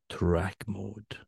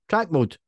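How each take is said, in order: First: It is said in a breathy, sexy voice. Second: It is said in a plain voice.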